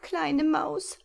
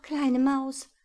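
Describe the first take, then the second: First: High pleading owl, rising at the end; trapped owl pleading with the little mouse; desperate plea. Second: Higher, louder owl calling; calling after. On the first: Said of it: "bat sie verzweifelt". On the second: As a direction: call him back. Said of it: "rief ihm die Eule nach". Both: Acted.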